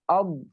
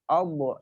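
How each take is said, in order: First: The final consonant is held without release. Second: The final consonant bounces with a small echo. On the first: The speaker calls it right. "Harus tertahan" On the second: The speaker calls it wrong. "tidak boleh memantul. Ob, itu salah"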